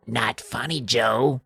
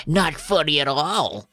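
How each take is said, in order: First: Tiny gruff whispering voice, softer; lightly voiced sinister little gnome. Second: Higher, slow gruff little gnome; Chip. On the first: Gnome Hap warning Joe, hushed gruff little voice. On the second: Second gnome echoing the warning, slow gruff little voice. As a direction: draw it out as a tiny creepy creature. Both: A narrator's reading. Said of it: "hears their tiny little gruff voices".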